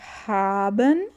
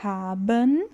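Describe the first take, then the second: Both takes have the same delivery.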